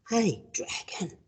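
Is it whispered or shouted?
whispered. It is whispered very softly.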